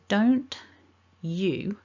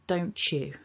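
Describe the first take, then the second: First: The t and y sounds stay separate. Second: The t and y merge into a ch.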